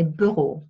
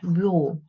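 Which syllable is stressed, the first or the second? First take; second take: first; second. First: The stress is on the first syllable. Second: The stress is on the second syllable. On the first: This is a regional pronunciation. "there are some people who say bureau, but that's here in my region" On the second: This is the speaker's own pronunciation. "I put the stress on the second syllable"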